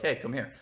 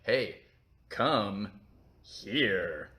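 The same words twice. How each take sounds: First: It is said in a plain, innocent way. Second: It is said in a suggestive, sexual tone.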